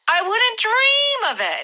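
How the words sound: It is said with dramatic, emotional emphasis. The idea is ridiculous and would never happen. The speaker calls it right. "you need to say it with a little bit of drama"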